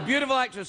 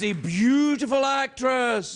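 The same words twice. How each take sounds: First: It is said in a plain, normal way. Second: It is said in an eerie, ghostly way. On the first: The speaker calls it right. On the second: The speaker calls it wrong.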